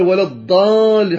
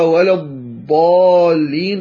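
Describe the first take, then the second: First: الضالين with a thickened D for ض; wrong emphatic dal. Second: الضالين with a true, heavy ض, drawn out slowly; slow, full ض in الضالين; correct Arabic Dad. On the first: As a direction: say الضالين higher, forcing a heavy dal. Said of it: "حاول أن يفخمها، هذا خطأ". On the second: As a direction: model الضالين slowly with the proper emphatic Dad. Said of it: "إذا لم ينطقها". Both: Shown as a demonstration.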